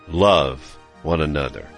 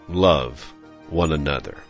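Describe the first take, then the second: The two takes are said the same way.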